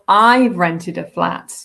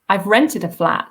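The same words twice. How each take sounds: First: The stress falls on the word I've. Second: The stress falls on the word rented. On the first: The speaker did it, not someone else. "not my parents, not my partner, but me" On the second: It was rented, not bought. "so I haven't bought it, but I've rented it"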